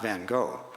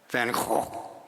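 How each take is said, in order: First: The name is said with an American pronunciation. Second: The name is said with a Dutch pronunciation.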